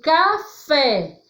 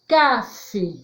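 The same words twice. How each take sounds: First: The stress is on the last syllable. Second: The stress is on the first syllable. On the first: The speaker calls it right. "quando eu coloco o tio" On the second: The speaker calls it wrong. "sem o tio"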